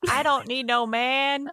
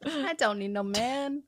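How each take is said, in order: First: High, slow sassy declaration; sassy attitude. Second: High sassy quote, laughing; sassy attitude. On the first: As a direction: toss it off with sass. Mock-sassy quote, both hosts. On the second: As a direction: echo it with sass. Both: Retold or imitated.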